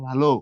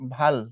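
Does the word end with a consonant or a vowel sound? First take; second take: vowel; consonant. First: The word ends with an 'o' vowel sound. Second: The word ends on a bare 'l' consonant. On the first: It means good. "ও দিয়ে পড়ো" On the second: It means forehead or fate. "কোনো কিছু নাই এখানে, মানে হসন্ত"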